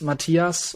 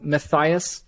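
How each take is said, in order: First: The name is pronounced the German way. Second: The name is pronounced the English way. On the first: This is the native form of the name. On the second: This form is easier for non-Germans.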